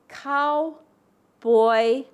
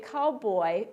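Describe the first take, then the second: First: A pause separates the syllables, the second stressed. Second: The word is said smoothly without a break.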